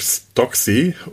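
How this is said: The name is said with an English accent.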